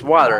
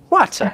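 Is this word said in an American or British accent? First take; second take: American; British. First: It is said with an American accent. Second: It is said with a British accent. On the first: The speaker calls it right. "We say water. Just like this" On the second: The speaker calls it wrong. "in the United Kingdom they say water"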